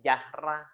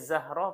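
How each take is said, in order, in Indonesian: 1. Nama itu diawali dengan bunyi j. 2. Nama itu diawali dengan bunyi z. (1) "panggilnya Jahra" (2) "Harusnya Zahra"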